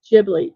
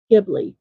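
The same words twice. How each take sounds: First: Ghibli with a soft G, like "Jib-lee". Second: Ghibli with a hard G, as in "give". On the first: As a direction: say Ghibli starting with a J sound. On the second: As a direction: say Ghibli starting "gib-", not "jib-". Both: Shown as a demonstration. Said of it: "depending on how you pronounce it".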